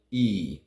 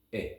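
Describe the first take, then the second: First: "E" held long with spread lips, louder; teacher showing the long vowel. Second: "E" clipped short, lips relaxed; teacher showing the short vowel. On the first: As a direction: stretch the E. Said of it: "the long E and the short E". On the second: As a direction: cut the E short. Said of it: "a shorter E". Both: Shown as a demonstration.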